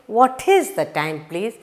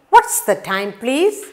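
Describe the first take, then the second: First: "What is" is said as two full words. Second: "What is" is contracted to "what's". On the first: The speaker calls it wrong. "You don't say" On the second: The speaker calls it right. "You use the contraction"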